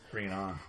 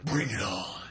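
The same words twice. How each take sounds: First: It is said in a normal voice. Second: It is said in a Batman voice.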